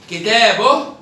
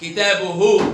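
First: Slow كتابه as "kitaboh"; sukun on haa. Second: Slow كتابه as "kitabuhu"; damma on haa. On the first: Teacher tests the haa, كتابه ending in -oh. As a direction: end كتابه on a breathed h. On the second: Teacher tests the haa, كتابه ending in -uhu. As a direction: finish كتابه with a full -uhu. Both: Shown as a demonstration. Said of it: "يبقى بالهاء".

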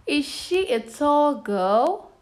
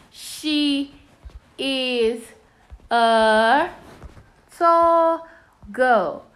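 First: Put-on "Is she a tall girl" rising high on "girl"; question tune. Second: Put-on "She is a tall girl" word by word, falling on "girl"; statement tune. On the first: Teacher reading out the unscrambled sentence as a question, "girl" rising. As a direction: slowly ask it, lifting "girl" at the end. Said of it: "This one is a question mark". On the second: Teacher showing the period version, word by word with "girl" falling. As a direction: space out each word, lift "tall", drop "girl". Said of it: "this ends with a period mark". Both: Shown as a demonstration.

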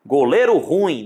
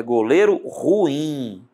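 First: "ruim" squeezed into one syllable, RUim; wrong pronunciation. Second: "ruim" slowly in two syllables, ru-IM; careful "ruim" with u and i apart; correct hiatus. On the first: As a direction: say "ruim" stressed on the u. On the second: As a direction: stretch "ruim", stressing the final IM. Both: Shown as a demonstration. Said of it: "não. É goleiro ruim".

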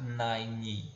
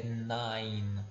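First: Nine said as "naini"; wrong nine with final i. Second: Nine ending on the n; correct nine. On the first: Teacher showing the wrong nine. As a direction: add an i after the n of nine. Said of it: "não deve pronunciar nine". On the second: Teacher giving the right nine. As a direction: stop nine on the n. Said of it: "como se esse E não existisse". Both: Shown as a demonstration.

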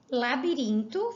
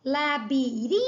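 First: Said in the usual way. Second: "Labirinto" by syllables, RIN held long; stress on RIN. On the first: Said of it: "pintar a sílaba tônica". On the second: Shown as a demonstration. Teacher showing the tonic syllable, RIN stretched in "Labirinto". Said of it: "é o rim".

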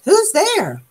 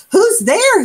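First: High, far-off sleepy creature voice; startled again. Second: Much higher, louder startled cry. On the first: Old Armadillo calling again toward the knocking, high startled voice. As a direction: call out again, higher and odder. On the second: Old Armadillo startled from sleep, calling at the door. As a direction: jolt awake and call out. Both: A narrator's reading. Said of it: "woke with a jump".

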